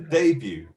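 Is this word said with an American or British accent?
British. It is said with a British pronunciation. "What about in British English? ... This is going to be a debut"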